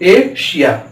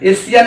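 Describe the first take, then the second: First: The middle consonant is a sh sound. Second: The middle consonant is a plain s sound. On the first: The speaker calls it right. "उसका उच्चारण श यानी बड़ा श" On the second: The speaker calls it wrong. "एशिया नहीं है"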